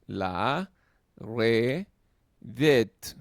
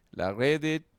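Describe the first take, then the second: First: La, re, det split into three loud syllables. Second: Said in the usual way. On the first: Shown as a demonstration. Teacher spelling a word out for students, syllable by syllable. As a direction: break "La redet" into La, re, det. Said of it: "son tres vocales". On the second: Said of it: "whole word before syllabifying".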